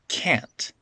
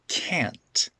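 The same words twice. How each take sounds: First: The final T is fully released. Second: The final T is fully released.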